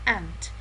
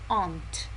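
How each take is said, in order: First: It is said with an American pronunciation. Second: It is said with a British pronunciation. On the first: "the American pronunciation is ant" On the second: "the British pronunciation is aunt"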